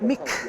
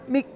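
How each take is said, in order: First: The final consonant is released with a slight vowel. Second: The final consonant is cut off very short. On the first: The speaker calls it wrong. "not mik ... add almost a bit of an extra syllable" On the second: The speaker calls it right. "I'm saying mik, ... very, very short. It's almost a glottal stop"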